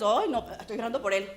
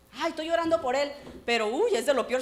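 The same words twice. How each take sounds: First: Said in the usual way. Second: Hammed-up churchy gossip; mock pious sigh. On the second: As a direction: put on a pious act. Mocking fake piety.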